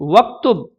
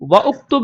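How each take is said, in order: First: Wa joins directly onto ktub with no vowel. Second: A separate u vowel follows wa before ktub. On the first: The speaker calls it right. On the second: The speaker calls it wrong.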